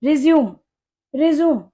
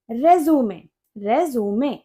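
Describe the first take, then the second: First: रिज्यूम as "ri-ZYOOM", two syllables; verb pronunciation. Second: रेज्यूमे as "RE-zoo-may", three clear syllables; document pronunciation. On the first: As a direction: close रिज्यूम on m, no final e. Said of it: "वहां इसको आप रिज्यूम पढ़ेंगे". (रिज्यूम, आख़िर में "म" पर बंद) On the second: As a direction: finish रेज्यूमे on an open "may". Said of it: "documents की बात होगी". (रेज्यूमे, आख़िर में "मे") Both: Shown as a demonstration.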